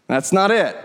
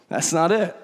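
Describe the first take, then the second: First: Said in the usual way. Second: Said through a soft chuckle, quieter; laughing softly. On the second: Real, not acted. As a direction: laugh it off gently. Repeats line, second time laughing.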